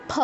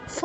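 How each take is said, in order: First: ফ as aspirated p; two-lip ফ. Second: ফ as English f; habitual lip-teeth ফ. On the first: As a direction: pop ফ from closed lips with breath. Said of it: "আরেকটা অসুবিধা হবে ফ". (ফ, দুই ঠোঁটে মহাপ্রাণ) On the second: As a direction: blow ফ between upper teeth and lower lip. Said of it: "ফ বলে এসেছি আমরা". (ফ, দাঁত-ঠোঁটের প্রচলিত উচ্চারণ) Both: Shown as a demonstration.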